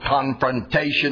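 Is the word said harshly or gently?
harshly. The word is said in a harsh, aggressive tone. The person is being attacked. The speaker calls it wrong. "Don't say it like that"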